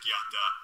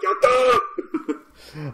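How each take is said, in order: First: It is said flatly, without enthusiasm. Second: It is said with excited enthusiasm.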